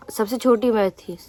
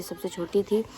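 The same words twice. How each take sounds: First: Said in the usual way. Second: Soft unvoiced whisper; whispered aside. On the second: Real, not acted. Aside about being the youngest. (धीमी फुसफुसाहट में)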